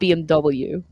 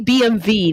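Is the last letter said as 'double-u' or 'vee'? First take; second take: double-u; vee. First: The last letter is said as 'double-u'. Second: The last letter is said as 'vee'. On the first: The speaker calls it wrong. "not B M W" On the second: The speaker calls it right. "it's really B M V"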